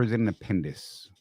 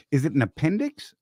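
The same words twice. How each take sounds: First: "appendix" with the x softened to a plain s; appendix ending in s. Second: "appendix" pronounced with the x heard; appendix ending in x. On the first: Puzzled host offers second option, "appendix" said as "appendis". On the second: Puzzled host offers first option, "appendix" ending in ks. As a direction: say "appendix" with a final ks sound. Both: Shown as a demonstration. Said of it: "so I'm still lost".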